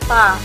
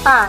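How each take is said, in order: First: The t is said with air flowing out. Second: The t is said without a puff of air. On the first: The speaker calls it right. "Ada udara yang mengalir ketika kita melafalkan huruf tersebut" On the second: The speaker calls it wrong. "bukan ta"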